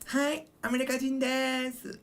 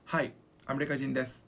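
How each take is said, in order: First: It is said in a cute girlish voice. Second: It is said in a plain, normal voice.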